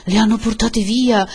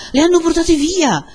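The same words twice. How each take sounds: First: Raised, higher-pitched alarm; alarmed cry. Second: Very high, loud outcry; escalated alarm. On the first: Villagers find the women gone, alarmed cry. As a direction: announce a dreadful discovery aloud. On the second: Villagers shout that the women were taken, escalated alarm. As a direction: spread the alarm at full voice. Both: A narrator's reading.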